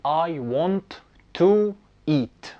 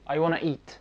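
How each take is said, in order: First: Every sound of 'want to' is said clearly. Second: 'Want to' is blended into 'wanna'. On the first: "انت عملت ستريس على كل الحروف تقريبا" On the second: "wanna ديت هي اختصار ل want to"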